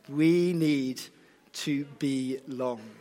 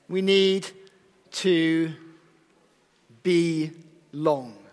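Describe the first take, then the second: First: Be and long run together as belong. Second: Be and long are said as separate words. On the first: People need to belong. The speaker calls it right. "Ah, that's better" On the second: People must be tall or long in length. The speaker calls it wrong. "That doesn't sound right, does it?"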